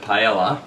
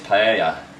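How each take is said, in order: First: It is said with an Australian English pronunciation. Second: It is said with a Spanish pronunciation. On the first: The speaker calls it wrong. "I've been calling it paella" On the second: The speaker calls it right. "The actual correct name is paella. It's the correct pronunciation"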